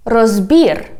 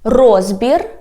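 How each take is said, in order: First: "розбір" stressed on БІР, falling; end-stressed "розбір"; stress on last syllable. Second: "Розбір" stressed on РОЗ, rising end; front-stressed "Розбір"; stress on first syllable. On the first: Teacher modelling for repetition, "розбір" stressed on БІР. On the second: Teacher modelling for repetition, "Розбір" stressed on РОЗ. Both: Shown as a demonstration. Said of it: "repeat after me".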